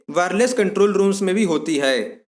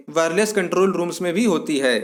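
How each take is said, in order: Both takes have the same delivery.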